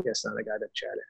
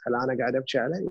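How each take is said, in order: First: Softer answer, falling on عليه; quiet affirming answer. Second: Rising questioning tune ending on عليه; quick self-question, lifting up on عليه. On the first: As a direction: settle it quietly, tune dropping on عليه. (جواب هادئ بنبرة هابطة على "عليه") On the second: (سؤال سريع بنبرة صاعدة على "عليه") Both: Shown as a demonstration. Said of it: "بس خل أميز".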